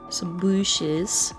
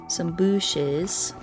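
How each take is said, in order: Both takes have the same delivery.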